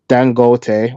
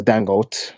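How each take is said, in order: First: "Dangote" with a sounded final "tay"; alternative pronunciation. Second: "Dangote" with a silent final e; alternative pronunciation. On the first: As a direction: say "Dangote" in three syllables, ending "-tay". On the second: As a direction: say "Dangote" in two syllables, like "dan-goat". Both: Shown as a demonstration. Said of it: "however you pronounce that".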